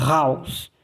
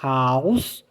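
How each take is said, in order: First: "house" with a throaty rolled scrape at the front; guttural R. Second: "House" with a light breath, rising at the end; clean H. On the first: Teacher repeating the contrast for learners, guttural R. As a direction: rasp hard into "house" from the throat. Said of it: "ele é gutural". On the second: Teacher repeating the contrast for learners, clean H. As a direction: open "House" cleanly, no rasp. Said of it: "H, um R limpo". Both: Shown as a demonstration.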